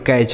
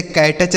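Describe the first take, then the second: First: कैच in one syllable, silent t; correct pronunciation. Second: कैटच with an extra t before the ch; wrong pronunciation. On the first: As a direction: run कै straight into च as कैच. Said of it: "कैच पढ़ेंगे". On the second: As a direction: split it wrongly as कै-टच. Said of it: "इसे कैटच नहीं पढ़ेंगे". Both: Shown as a demonstration.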